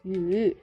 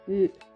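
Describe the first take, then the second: First: The pitch falls and then rises. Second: The pitch falls throughout. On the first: It means give. "The third one we use fall and rise tone and it means give" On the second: It means meat. "And the last one we use fall tone and it means meat"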